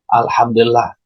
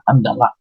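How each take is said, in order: First: Every syllable is said fully and clearly. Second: It is rushed, with syllables squeezed and dropped.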